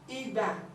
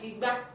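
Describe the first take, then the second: First: The tones go re then do. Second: The tones go re then mi. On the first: It means a tool for tapping palm wine. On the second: It means calabash.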